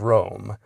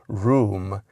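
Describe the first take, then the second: First: The vowel is an 'oh' sound. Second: The vowel is an 'oo' sound. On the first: This is the restored pronunciation matching the spelling. "that O sound" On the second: This is the older shifted pronunciation. "pronounced it room instead of Rome"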